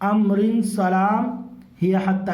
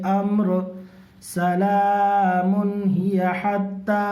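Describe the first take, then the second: First: Amrin runs straight into salam without pausing. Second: There is a pause after the word amr. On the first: "इस तरह से भी पढ़ सकते हैं" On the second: "यहाँ पे रुक सकते हैं"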